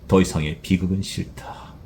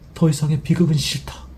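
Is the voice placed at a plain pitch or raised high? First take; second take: plain; raised. First: The voice is at a plain, ordinary pitch. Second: The voice is raised and placed high. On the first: This is how the speaker himself imagined it. "그냥 그냥 저의 스타일로" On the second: This is how the hired voice actor delivered it. "약간은 이 목소리를 여기까지 올리시더라고요. 이 소리의 그 위치를"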